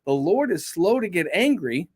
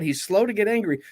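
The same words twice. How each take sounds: First: Said in the usual way. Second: "slow" drawn out and leaned on; slow given the weight, falling; stress on slow. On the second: Shown as a demonstration. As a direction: lean into the word "slow", let it fall. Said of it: "Aren't you glad for that?".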